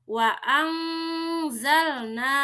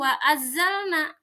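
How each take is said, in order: First: The n is hidden as a soft nasal hum. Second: The n merges fully into the following z. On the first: The speaker calls it right. "tapi samar nun sukunnya" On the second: The speaker calls it wrong.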